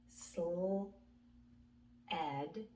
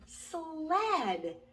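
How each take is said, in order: First: The word is split into two separate parts. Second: The word is said quickly as one whole. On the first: "let's sound it out" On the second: "let's say it fast"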